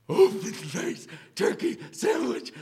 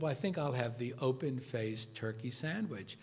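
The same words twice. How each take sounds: First: High, loud, strained mock exclamation; hammed-up professor outburst, much higher and louder; Kubler impression. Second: Said in the usual way. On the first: Professor echoing his guest's lunch order, high theatrical imitation. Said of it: "like that".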